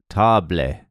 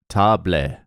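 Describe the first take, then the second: Both takes have the same delivery.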